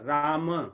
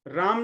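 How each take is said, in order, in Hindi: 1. शब्द का अंत पूरे अक्षर 'ma' से होता है। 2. शब्द का अंत शुद्ध व्यंजन 'm' से होता है। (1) "सही है संस्कृत के अनुसार" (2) "राम नहीं"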